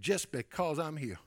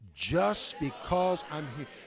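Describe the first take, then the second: First: It is said in a plain, ordinary way. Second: It is said forcefully, with strong conviction. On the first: "everybody say this with me" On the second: "Now say it again with conviction"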